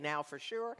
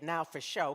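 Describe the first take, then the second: First: The last word is pronounced like 'sure'. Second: The last word is pronounced like 'show'. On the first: It is the standard way to say it. "the true pronunciation of the word" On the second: It is bent to rhyme with the lyric. "this is the way I say it now for show, because I just make it rhyme"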